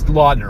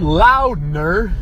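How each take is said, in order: First: The first vowel sounds like 'aw' in law. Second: The first vowel sounds like 'ow' in loud. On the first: The speaker calls it right. "It's Laudner, okay?" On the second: The speaker calls it wrong. "Just like Tim McCarver says"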